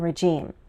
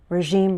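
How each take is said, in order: First: The middle consonant is a J sound. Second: The middle consonant is a ZH sound. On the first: "a Z H or J sound" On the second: "a Z H or J sound"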